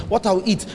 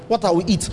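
No difference in how they are said.

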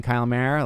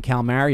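First: Said in the usual way. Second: "Kyle Mara" with Kyle shortened to sound like "Cal"; blurred name. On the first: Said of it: "what are you saying right there?". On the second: Shown as a demonstration. Comic showing his name misheard, "Kyle Mara" blurred to "Cal-Mar". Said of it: "It could be like".

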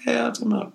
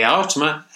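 First: A R said as two separate letters, pitched up high; spelled A R. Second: Said in the usual way. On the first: Shown as a demonstration. Correcting himself, spells the web address as A R.

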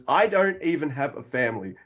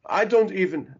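First: Said in the usual way. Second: Higher, put-on Chinese accent; Jet Li accent. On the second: Comedian quoting Jet Li near the film's end, in a put-on accent. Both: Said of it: "I don't know why I did the accent".

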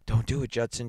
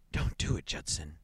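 First: A louder, pleading "Don't do it" with the stress on "do"; begging. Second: A frightened, breathless "Don't do it" with the stress on "do"; gasping plea. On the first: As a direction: beg him, a touch desperate. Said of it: "she begged". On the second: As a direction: gasp it out, pleading and scared. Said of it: "she gasped". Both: A narrator's reading.

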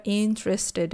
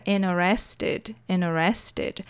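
First: "interested" as IN-trested, three syllables; common pronunciation. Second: "interested" as inne-RES-ted, no first T; T dropped. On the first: Teacher comparing variants of "interested", common three-syllable form. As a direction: stress the start of "interested" and keep the first T. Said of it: "é muito mais comum". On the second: Teacher showing regional "interested" to students, first T dropped. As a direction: let the first T of "interested" vanish. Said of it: "sumir com o T". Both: Shown as a demonstration.

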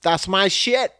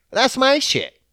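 First: Said in the usual way. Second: Much higher, crowing brag; hammed-up triumphant boast; proud boast. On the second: Shown as a demonstration. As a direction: crow it out, proud of yourself. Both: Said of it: "says it twice, second bigger".

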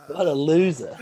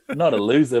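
First: High, jeering Geordie-free teammate voice mocking him. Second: Said in the usual way. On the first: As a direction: taunt him like the boys at training, pitched up. Teammates roasting him over jersey. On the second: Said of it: "Not a loser, but".

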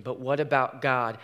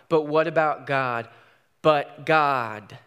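First: Said in the usual way. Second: Louder, urgent repeat; rising cry. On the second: Acted. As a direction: build the question into a cry. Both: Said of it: "asks the simple question".

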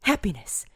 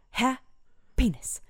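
First: Said in the usual way. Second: Breathy whisper, slow. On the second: Shown as a demonstration. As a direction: whisper it slowly, drawn out. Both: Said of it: "practicing happiness".

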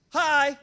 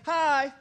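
First: A casual single hi; visitor's hello. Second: A drawn-out chorus hi; class reply. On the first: Visitor entering a Nigerian classroom, a casual hi. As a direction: greet the class like a visitor walking in. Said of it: "you say". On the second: Nigerian class answering the visitor, a chorus hi. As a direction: answer like a whole classroom in unison. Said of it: "they say". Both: Retold or imitated.

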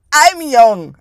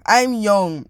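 First: Loud, insistent declaration; emphatic. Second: Said in the usual way. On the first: Real, not acted. Insisting on own youth.

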